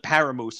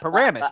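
First: "Paramoose" said with a long oo, like the animal moose; imitating a stranger's "Paramoose", ending on moose; mock mispronunciation. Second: "Paramus" said PAIR-uh-mus, stress on the first syllable, short ending; correct local pronunciation. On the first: Mocking how a stranger butchered the town name. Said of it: "They called it Paramoose". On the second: Shown as a demonstration. Correcting the stranger's version, in a firm local pronunciation. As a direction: give the proper local "Paramus", not moose. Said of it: "That's, that's Paramus".

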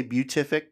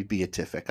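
First: BEATIFIC as byoo-TIF-ik; usual pronunciation. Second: BEATIFIC as bee-uh-TIF-ik; alternative pronunciation. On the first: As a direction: say BEATIFIC with a merged first syllable, byoo. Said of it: "I usually say". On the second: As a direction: split BE-A in BEATIFIC into two syllables. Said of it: "it could just be beatific". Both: Shown as a demonstration.

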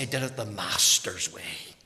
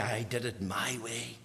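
First: "Master's" leaned on, said lower; stress on Master's. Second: Dismissive quote. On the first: Shown as a demonstration. Preacher contrasting his way with "Master's", stressing "Master's". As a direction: land "Master's" firmly and low. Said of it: "I want to say". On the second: Retold or imitated. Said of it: "I don't want to be saying".

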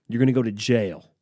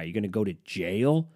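First: Louder, falling flat statement of fact; now tell him straight, no question; firm statement. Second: Rising question on jail; incredulous question. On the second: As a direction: ask it like he can't believe it. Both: Retold or imitated. Talking a friend out of fighting.

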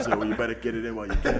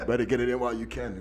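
First: Fast, laughing. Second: Rapid, giggly echo of the joke; laughing, joking advice said again; fast, laughing repeat. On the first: Joking advice, laughing. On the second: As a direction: rattle it off while still laughing. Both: Real, not acted.

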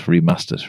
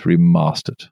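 First: REMASTERED with a short flat "a", as in "cat"; northern short A. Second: REMASTERED with a long "ah", as in "father"; posh long A. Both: Shown as a demonstration. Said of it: "Depends how posh you want to be".

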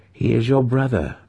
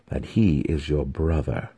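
First: He is YOUR brother, your raised and stressed; stern reminder. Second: That HE is your brother, he stressed, falling end. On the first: Matron reminds her daughter, stressing your. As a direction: lean on your, falling at the end. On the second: Matron ends her warning to the daughter, stressing he. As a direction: lean on he, drop down after. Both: A narrator's reading.

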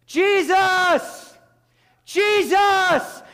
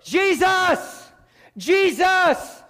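First: Very high, full-voiced shout; drawn-out, all-out holler; crying out louder. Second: High, loud cry for help; drawn-out, pleading shout; raised voice. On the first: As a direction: belt out a desperate plea, holding it long. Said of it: "He began to cry out even louder". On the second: Acted. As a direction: call out desperately over a crowd. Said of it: "He raised his voice".

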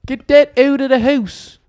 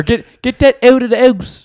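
First: "house" said without its H, "ouse", high; dropped H's. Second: "house" said as "ouse", H dropped, high; dropped H's. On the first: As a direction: drop the H in "house". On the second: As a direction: drop the H in "house" again, louder. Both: Retold or imitated. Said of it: "add H's and, like, take some away".

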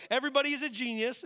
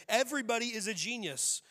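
First: Quote said louder. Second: Said in the usual way. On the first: Acted. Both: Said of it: "here's the quote".

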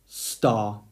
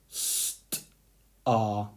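First: Said in the usual way. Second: St-ar pulled apart into st and ar, softly; split into sounds. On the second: Shown as a demonstration. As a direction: stretch St-ar into its two sounds. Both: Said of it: "So let's break it up into two parts".

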